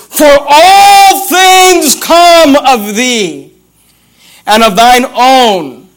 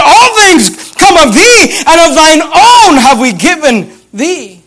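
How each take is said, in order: First: Very slow, long-held "all things"; higher, drawn-out scripture with each word savoured; slow proclamation. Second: High, slow preached verse; raised pitch, pressing each phrase hard; forceful proclamation. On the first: Savours favourite verse, then repeats it. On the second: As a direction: ring it out over the congregation, leaning on "All". Repeats verse at full preaching force. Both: Shown as a demonstration.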